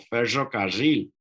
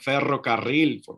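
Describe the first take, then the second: First: The rr is a buzzing, hissing sound, as in northern Argentina. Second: The rr is a rolled trill.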